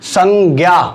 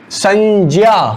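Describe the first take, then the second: First: The conjunct is said the common everyday way. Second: The conjunct is said strictly as j plus nasal. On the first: This is how it is commonly pronounced in practice. "लेकिन उच्चारण होता क्या है" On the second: This is how it should be pronounced by rule. "उच्चारण होना चाहिए संज्ञा"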